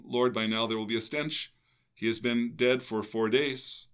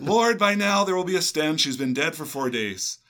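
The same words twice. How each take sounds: First: Martha's line kept in the even reading voice; gospel reading. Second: High, loud mock-complaining Martha; whiny objection. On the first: Acted. Reading Martha's words in the gospel, even proclamation. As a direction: read the objection straight, no acting. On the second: Quoting Martha's objection to the host, hammed-up high whine. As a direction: protest it like an exasperated objector.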